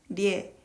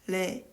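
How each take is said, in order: First: The vowel begins with a y glide. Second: The vowel is plain, with no glide.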